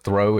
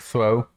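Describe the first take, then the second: First: The th sound is pronounced normally. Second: The th sound is pronounced in a distorted way. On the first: The speaker calls it right. "instead of throw" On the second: The speaker calls it wrong. "A lot of THs is where they get it messed up"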